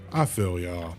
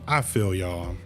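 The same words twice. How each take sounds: The two takes are said the same way.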